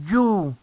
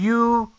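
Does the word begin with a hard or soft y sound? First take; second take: hard; soft. First: It begins with a hard, Spanish-like y sound. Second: It begins with a soft, vowel-like i sound. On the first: The speaker calls it wrong. "No es you" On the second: The speaker calls it right.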